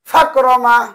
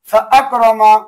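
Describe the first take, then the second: First: The glottal stop is dropped, words run together. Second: The glottal stop is clearly kept between words. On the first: The speaker calls it wrong. "এভাবে বলা যাবে না" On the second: The speaker calls it right. "বরং ভিন্ন করে উচ্চারণ করতে হবে"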